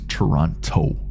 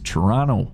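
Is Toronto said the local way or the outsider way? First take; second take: outsider; local. First: Toronto is said the way outsiders say it. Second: Toronto is said the way locals say it. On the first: The person is not really from the city. The speaker calls it wrong. "We know you fake. We know you're not from Toronto" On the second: The person is really from the city. The speaker calls it right. "That's the way we say it here"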